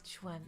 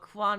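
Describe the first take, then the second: First: The word is said like 'chwen'. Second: The word is said like 'kwan'. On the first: The speaker calls it right. "Quan is Chuen" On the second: The speaker calls it wrong. "I'm sorry, I got me four snakes. I don't know all of the uh, pronunciations"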